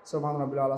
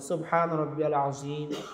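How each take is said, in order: First: It is rushed in one breath. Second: It is said clearly, then a pause.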